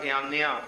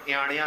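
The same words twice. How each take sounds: First: ਇਆਨਿਆ with a plain dental n; ਇਆਨਿਆ read with the ਨ sound. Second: ਇਆਣਿਆ with a curled-back ਣ; ਇਆਣਿਆ with the tongue curled back on n; mistaken retroflex n. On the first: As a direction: say ਇਆਨਿਆ as "iaania", tongue forward on the n. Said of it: "ਨੰਨੇ ਨਾਲ ਪੜ੍ਹਿਓ". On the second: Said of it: "ਇਆਣਿਆ ਨਹੀਂ ਪੜ੍ਹਨਾ". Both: Shown as a demonstration.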